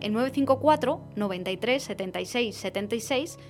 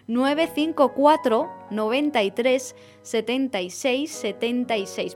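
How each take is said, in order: First: The number is said at a quick pace. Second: The number is said at a slow pace.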